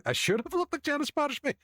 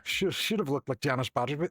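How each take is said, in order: First: Very high, incredulous repeat; mock indignation. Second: Said in the usual way. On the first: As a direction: squeal it back in mock outrage. Indignant repeat of the same remark.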